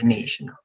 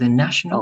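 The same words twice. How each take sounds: First: The first vowel is a long 'ay'. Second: The first vowel is a short 'a'. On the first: The speaker calls it wrong. "instead of nay" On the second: The speaker calls it right. "it's only going to be a"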